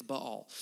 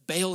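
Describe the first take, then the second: First: "Baal" as buh-ALL, stressed second syllable; correct pronunciation. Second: "Baal" said as BAY-ul; mistaken pronunciation. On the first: Preacher gives congregation the correction, "Baal" pronounced buh-ALL. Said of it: "It's Baal". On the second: Preacher shows congregation the mistake, "Baal" pronounced BAY-ul. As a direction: say "Baal" like "bail". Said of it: "is not how you say it". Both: Shown as a demonstration.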